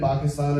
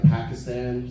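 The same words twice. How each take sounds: First: "Pakistan" as PAH-kis-tahn, broad ah vowels; native pronunciation. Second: "Pakistan" as PACK-iss-tan, short flat a; Americanized pronunciation. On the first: Comic mentioning the news, "Pakistan" said natively as PAH-kis-tahn. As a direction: say "Pakistan" with open ah in both stressed syllables. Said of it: "so people know what I'm talking about". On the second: Comic translating for American listeners, "Pakistan" Americanized as PACK-iss-tan. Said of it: "I have to be like". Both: Shown as a demonstration.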